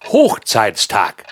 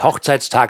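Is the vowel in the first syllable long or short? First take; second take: long; short. First: The first syllable has a long vowel. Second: The first syllable has a short vowel. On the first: It names the day of a high point. The speaker calls it right. "weil die Eheschließung in deinem Leben ja ein Hoch war" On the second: It names the wedding anniversary. The speaker calls it wrong. "Es heißt nicht Hochzeitstag"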